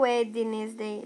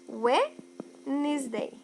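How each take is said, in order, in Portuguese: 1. O som do D no meio é pronunciado. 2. O som do D no meio é silencioso. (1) "eu não falo Wednesday" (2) "sem o D"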